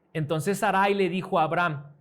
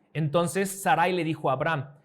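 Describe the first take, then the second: The two takes are said the same way.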